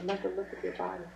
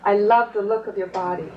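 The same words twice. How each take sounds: First: It is said at a quiet volume. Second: It is said at a louder volume.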